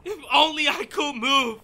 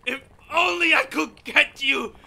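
First: "only" stressed through a sob; crying out. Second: Said in the usual way. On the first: Acted. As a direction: break into tears on "If only". Captive strains against his bonds.

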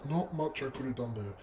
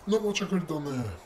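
First: Softer resigned mutter; muttered repeat. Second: Said in the usual way. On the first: Real, not acted. Gamer mutters it again to himself. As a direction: say it again under your breath. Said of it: "repeated more quietly". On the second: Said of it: "repeats it muttered".

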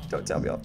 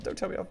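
First: Low unvoiced whisper. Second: Said in the usual way. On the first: Whispering to himself, scared. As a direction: breathe it out scared.

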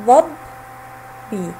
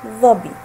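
First: "ظبي" very slowly, split as ظبـ then ي; teacher's slow syllable-by-syllable "ظبي"; broken into sounds. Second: Said in the usual way. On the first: Shown as a demonstration. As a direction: sound out "ظبي" with a long pause before the final ي. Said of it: "وجاء بعده حرف الباء ساكنا".

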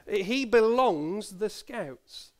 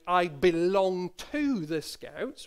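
First: Slow, stretched BELONGS running straight into "the Scouts"; granny's quaint phrase. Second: Slow, with TO punched as the added word; stress on TO. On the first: Retold or imitated. Grandchild showing how granny talked, slow drawn-out BELONGS. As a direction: draw BELONGS out long, leaving out "to". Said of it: "I wouldn't talk like that". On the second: Shown as a demonstration. Speaker correcting granny's phrase, heavy stress on TO. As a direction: lean hard and long on TO. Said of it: "there's the missing word".

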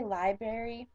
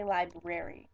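First: Library as "LIE-berry"; common mispronunciation. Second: Library with both r's, "LIE-brair-ee"; own pronunciation. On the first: Mimicking what many people say, library as "lie-berry". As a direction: drop the first r in library. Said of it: "A lot of people say library". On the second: Correcting with own way, full library. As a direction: sound the br in library. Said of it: "I say library". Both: Shown as a demonstration.

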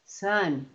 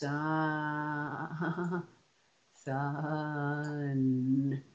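First: Said in the usual way. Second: "Sun" sounded out slowly, s-u-n, each sound held; slowly stretched. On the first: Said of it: "they will say". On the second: Shown as a demonstration. Child finally stretching the word correctly, slow and even. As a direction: draw out every sound of "Sun". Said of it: "they will finally get it".

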